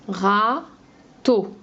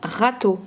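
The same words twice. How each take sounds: First: "Râteau" as a drawn-out râ, long pause, then teau; split into syllables. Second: Said in the usual way. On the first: Shown as a demonstration. Teacher breaking a word up for a pupil, "Râteau" syllable by syllable. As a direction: stretch the first syllable of "Râteau" and set the second apart. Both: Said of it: "On enlève la deuxième syllabe".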